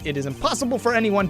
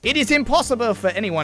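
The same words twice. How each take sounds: First: It is said in the speaker's normal voice. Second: It is said in a put-on character voice. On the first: The speaker calls it wrong. "Oh, I forgot" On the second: The speaker calls it right. "I got to do my Edgeworth voice"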